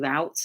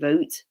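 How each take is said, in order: First: It is said the way Americans say it. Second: It is said in the speaker's own non-American way. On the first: This is how the listener's group says it. "you say route" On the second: This is how the speaker's own group says it. "we say root"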